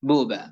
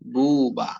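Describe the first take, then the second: First: The syllables are short and plain. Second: The syllables are stretched and drawn out. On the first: The speaker calls it right. "উচ্চারণ কি হবে?" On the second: The speaker calls it wrong. "এরকম টান টান ভাব হরকতের উচ্চারণের মধ্যে কোনো ভাবেই নিয়ে আসা যাবে না"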